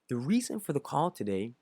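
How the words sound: It is said slowly in a secretive tone. The speaker calls it right. "he'll stop, slow down, and say"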